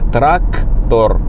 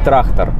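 First: A clear K sound is heard in the word. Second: The K sound is replaced by another sound. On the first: The speaker calls it right. "К, буква К, трактор" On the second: The speaker calls it wrong. "А не трактор"

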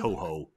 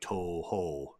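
First: Both vowels are said short. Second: Both vowels are held out long. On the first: "as opposed to like Toho, the production company" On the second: "both of the O's are held out"

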